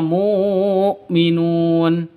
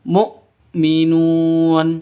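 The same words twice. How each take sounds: First: A w sound is heard after the first syllable. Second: A glottal stop is heard after the first syllable. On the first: The speaker calls it wrong. "jangan dibaca mu'minun" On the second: The speaker calls it right. "tapi langsung mu'minun"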